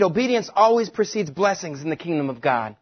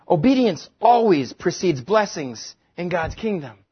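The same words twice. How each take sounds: First: Said in the usual way. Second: Slower, every word weighed; slow emphatic repeat. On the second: Shown as a demonstration. Preacher repeats the sheet's point slowly and firmly. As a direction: spell out the point for the congregation. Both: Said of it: "The next thing on your sheet".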